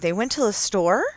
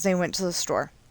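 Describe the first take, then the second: First: The voice rises at the end like a question. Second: The voice falls at the end like a statement.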